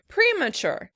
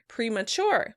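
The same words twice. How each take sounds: First: The stress is on the first syllable. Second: The stress is on the second syllable. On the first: "In British English, the word would be stressed on the first syllable" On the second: "In American English, the word would be stressed on the second syllable"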